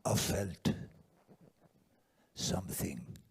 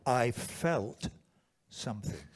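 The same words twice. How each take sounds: First: Put-on low French accent, long pause mid-phrase; halting, low French-accented delivery; weird French accent. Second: Said in the usual way. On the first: Quoting what the friend felt, in a weird French accent. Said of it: "weird French accent".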